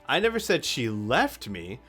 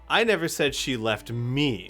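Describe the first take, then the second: First: The stress is on the word left. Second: The stress is on the word me.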